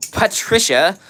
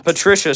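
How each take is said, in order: First: Patricia with a full "pat" first syllable, rising at the end; playful name mispronunciation. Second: Said in the usual way. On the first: Shown as a demonstration. Streamer reading Patricia off the chat, playfully overpronounced. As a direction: exaggerate Patricia as "PAT-trisha", drawn out and questioning. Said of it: "I have the urge to say it as Patricia". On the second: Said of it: "my bad".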